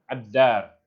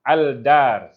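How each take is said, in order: First: The L merges into a doubled D sound. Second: The L of the article is clearly pronounced. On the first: The speaker calls it right. "sedangkan Ad-Dar" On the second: The speaker calls it wrong. "orang yang tak biasa dengan Syamsiyah dengan Qamariyah, mereka akan sebut Al-Dar"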